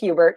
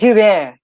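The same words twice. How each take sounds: First: The name is said in a plain, everyday way. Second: The name is said in a fancy, theatrical way. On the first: This is what her name really is. "she probably is Hubert" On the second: She is putting on airs as a stage actor. "she's a thespian, and so then she's Hubert on the stage doing her Shakespeare"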